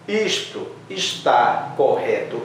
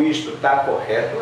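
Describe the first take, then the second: First: "está" said in full, both syllables, slowly; full form. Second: "está" shortened to "tá", everyday question; contracted spoken form. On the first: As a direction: spell out "está" carefully in a slow rising question. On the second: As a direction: run it together with a short "tá", rising. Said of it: "a gente fala". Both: Shown as a demonstration.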